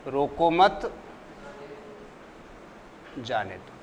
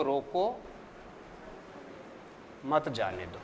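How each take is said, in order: First: रोको मत run together, rising, then a long pause before a low, soft जाने दो; pause after मत. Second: रोको alone, rising, then a long pause before a low, soft मत जाने दो; pause after रोको. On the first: Teacher showing students the opposite meaning, pause after मत. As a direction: join रोको to मत, break, drop low on जाने दो. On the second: Teacher showing students how a stop changes meaning, pause after रोको. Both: Shown as a demonstration. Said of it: "अर्थ बिल्कुल विपरीतार्थ हो गया ना".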